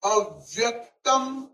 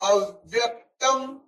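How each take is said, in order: First: The syllables 'a' and 'vya' are stressed. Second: The same.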